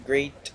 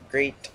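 Both takes have the same delivery.

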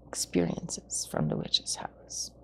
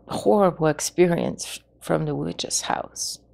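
First: Hushed, breathless whisper of the witch's house; eerie storyteller whisper. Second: Said in the usual way. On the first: Shown as a demonstration. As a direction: drop to a spooky whisper. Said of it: "repeated as a whisper". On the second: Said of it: "repeats phrase in whisper".

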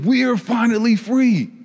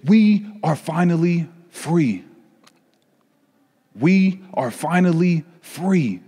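First: Higher, lifted inner thought of freedom; inner joy. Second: Joyful announcement. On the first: Carpet echoing the family's news to itself, joyful. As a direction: let the carpet's own joy rise up. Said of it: "I'm thinking". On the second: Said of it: "They said". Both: Acted.

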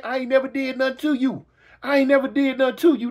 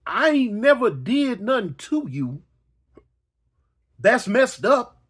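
First: Said in the usual way. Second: Whiny victim. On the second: Retold or imitated. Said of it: "repeats the victim line slowly".

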